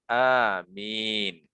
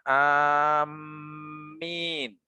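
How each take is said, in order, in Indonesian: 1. Vokal pertama panjang, dengan satu m. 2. Vokal pertama pendek, dengan m ganda. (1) "dibaca seperti lafadz Yasin" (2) "mentasydidkan mim"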